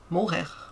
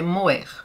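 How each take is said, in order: First: A breathy h-like sound is heard mid-word. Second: The middle h sound is silent. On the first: This may be how Portuguese speakers say it. "em português eu não sei se vocês pronunciam morrer" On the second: This is how it is said in France. "Aqui na França é moer, porque o H é mudo"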